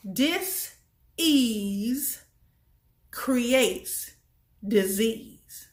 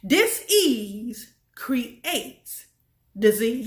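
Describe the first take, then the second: First: "Dis-ease" with a rise on "Dis", then "creates disease" falling; split dis-ease. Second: "Dis-ease creates" stretched very slowly, "disease" landing firmly; slow emphatic repeat. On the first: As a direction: break "Dis-ease" into two parts, pause before "creates". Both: Shown as a demonstration. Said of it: "I'm gonna say it one more time".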